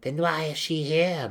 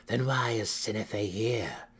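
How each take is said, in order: First: High, loud, angry demand; explosive cry. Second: Slower, more controlled demand. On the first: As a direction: cry out, edged with violence. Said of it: "Malice cried, her tone edged in explosive violence". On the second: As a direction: demand an answer, drawing it out. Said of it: "Malice demanded". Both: A narrator's reading.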